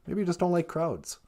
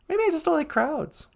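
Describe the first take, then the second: First: Low, soft suggestion; the partner suggests a dislike of crowds, low and soft; lower partner voice. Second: Said in the usual way. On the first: Pretend. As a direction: gently tease back. Partner voice reply.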